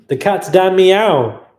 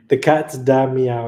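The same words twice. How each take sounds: First: Delighted shout. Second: Said in the usual way. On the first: Real, not acted. Reading a funny donor name.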